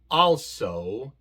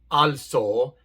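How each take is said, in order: First: The o is a long, gliding 'oh' sound. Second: The o is a short, pure Spanish-like vowel. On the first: The speaker calls it right. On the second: The speaker calls it wrong.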